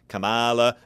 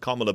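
First: The name does not begin like 'comma'. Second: The name begins like the word 'comma'. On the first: The speaker calls it wrong. "we do see Donald Trump constantly mispronouncing it. He calls her Kamala" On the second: The speaker calls it right. "You almost think of it like a comma in a sentence or an O sound"

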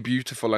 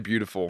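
First: The T is crisp in a non-American accent. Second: The T is soft in an American accent. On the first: The speaker no longer says it this way. "I don't say beautiful anymore" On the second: The speaker now says it this way. "it's easier to say it with An American accent. There's less T's"

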